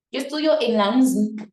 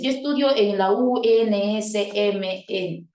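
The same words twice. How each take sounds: First: "unsnp" dicho como una sola palabra seguida; leído de corrido. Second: "U N S M N" deletreado, cada letra separada y algo lento; letra por letra. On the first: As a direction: pronuncia "unsnp" de un tirón, sin deletrear. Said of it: "¿Se podría pronunciar así?". (la sigla leída como palabra) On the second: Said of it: "lo pronuncias letra por letra". (la sigla leída letra por letra, sin juntar) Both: Shown as a demonstration.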